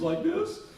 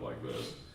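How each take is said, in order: First: The voice is high and boyish. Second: The voice is low and deep. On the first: This is the voice before puberty. "one day my voice was like this" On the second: This is the voice after puberty. "then the next morning I woke up like this"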